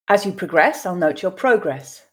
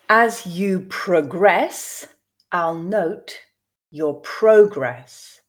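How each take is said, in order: First: The sentence is read at a natural pace. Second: The sentence is read slowly. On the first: "then I will read two more times at a more natural pace" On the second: "I will read once slowly for you to grasp the meaning"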